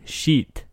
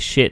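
First: It is said in a Russian accent. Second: It is said in a plain English accent.

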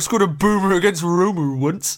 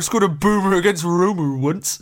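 First: It is said in an excited, energetic tone. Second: It is said in an excited, energetic tone.

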